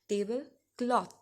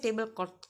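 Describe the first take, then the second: First: The word ends with a 'th' sound. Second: The word ends without a 'th' sound. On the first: The speaker calls it right. "H was there, so it became th" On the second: The speaker calls it wrong. "You don't say tablecloth, cloth, something like this. Okay, that's wrong"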